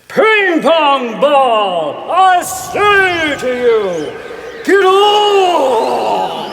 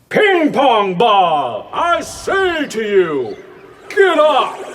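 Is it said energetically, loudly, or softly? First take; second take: energetically; loudly. First: It is said loudly with great gusto. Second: It is said loudly.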